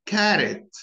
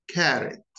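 First: "Carrot" with an American flat a; American pronunciation. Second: "carrot" said in British style, with the final t dropped; British pronunciation. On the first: Teacher showing learners the American accent. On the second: Teacher showing learners the British accent. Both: Shown as a demonstration. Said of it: "notice the differences between them".

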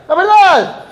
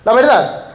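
First: "verdad" said much higher, stressed; emphatic repeat. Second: Said in the usual way. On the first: Real, not acted. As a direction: hit the second "verdad" up high. ("la verdad" repetido con énfasis, mucho más agudo)

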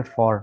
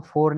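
First: "for" said with the mouth opened a little wider. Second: "for" said the wrong way, like the number four; the common mistake version of "for"; wrong pronunciation. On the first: Teacher showing students the correct "for", mouth opened wider. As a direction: open the mouth a bit on "for". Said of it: "थोड़ा सा मुंह खोल के". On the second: Teacher showing students the wrong "for". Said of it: "इसको for नहीं पढ़ते". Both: Shown as a demonstration.

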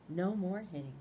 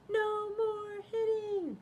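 First: Said in the usual way. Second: Very high, slow cheerful chant. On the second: Acted. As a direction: sing it out as a happy ending. High drawn-out character line.

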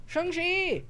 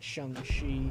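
First: Mock enemy shout. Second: Said in the usual way.

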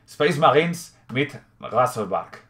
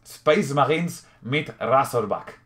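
First: Slow, careful German accent with a throaty German R in "Razorback"; German accent, "Razorback" said "Gasorbark" with a throaty R. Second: Slow German accent with a front rolled R in "Razorback"; German accent again, now saying "Razorback" with a clean trilled R; deliberate German accent, "Razorback" as "Rasorbak"; German accent, corrected. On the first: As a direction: read the box label like a German, stretching "Space Marines mit Razorback". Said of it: "puedo intentar imitar el acento alemán". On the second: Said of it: "bien, con acento alemán".

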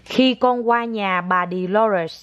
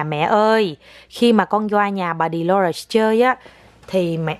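First: Put-on very slow, word by word, for a child to repeat; slow model phrase. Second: Put-on slow, careful line for the child to copy; slow model sentence. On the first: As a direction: stretch each word out as a lesson. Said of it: "con nói". (mẹ nói thật chậm cho con lặp lại) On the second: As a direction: spell it out slowly so she repeats. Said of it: "con phải nói như vậy nè". (mẹ nói chậm từng chữ cho con nói theo) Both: Shown as a demonstration.

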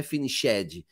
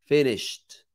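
First: "finished" said finishédi with an extra syllable; "finished" as fi-ni-shé-di; wrong pronunciation. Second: "Finished" said fenesht, ending in t; "Finished" in one clean stroke, no -ed vowel; right pronunciation. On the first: Teacher showing the wrong form. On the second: Teacher giving the correct form. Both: Shown as a demonstration. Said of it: "a pronúncia não é finished".

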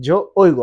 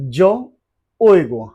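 First: Said in the usual way. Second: Very slow, each syllable drawn out; slow drill. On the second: Shown as a demonstration. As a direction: teach it slowly for repeating. (ধীরে ধীরে উচ্চারণ) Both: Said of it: "চলেন শুরু করি".

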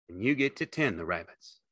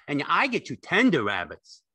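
First: Said in the usual way. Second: High, loud, delighted simple fellow; Lenny, eager and childlike. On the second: A narrator's reading. Lenny thrilled to tend rabbits, high and loud.

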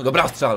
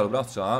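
First: Cheering. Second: Said in the usual way. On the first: Real, not acted. Cheering own shot.

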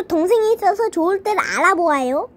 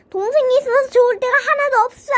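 First: Said in the usual way. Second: High, fast complaint; frustrated outburst. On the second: Acted. Brother complaining about having a sister, frustrated. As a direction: rush it out in a high, fed-up voice.

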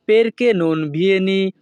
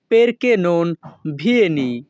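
First: Perché non vieni said slowly, syllable by syllable; slow it down so the class can repeat; careful slow demo for learners; slow teaching pace. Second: Said in the usual way. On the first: Shown as a demonstration. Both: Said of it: "দুই থেকে তিনবার বলার চেষ্টা করব".

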